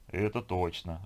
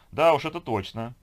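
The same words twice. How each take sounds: First: Understated, detached agreement; alien-sounding voice. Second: High, loud, strained agreement; forced smile. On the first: Man answering the girl while staring into fog, detached. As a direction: answer evenly, a little removed from yourself. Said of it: "ответил Сергей чужим голосом". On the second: Beauty agreeing about her workaholic man, forcedly cheerful. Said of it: "заставила себя улыбнуться красавица". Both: Acted.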